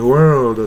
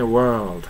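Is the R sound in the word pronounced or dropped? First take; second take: pronounced; dropped. First: The R sound is clearly pronounced. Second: The R sound is dropped. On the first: "アメリカ式にWorld" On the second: "R はR は響かせない。"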